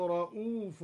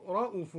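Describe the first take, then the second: First: Said in the usual way. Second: رءوف with the vowel after the hamza kept short. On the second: Shown as a demonstration. Teacher shows the shortened hamza. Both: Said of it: "قصر الهمزة هكذا".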